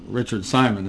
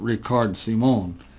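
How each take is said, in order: First: The name is said with an English pronunciation. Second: The name is said with a foreign pronunciation.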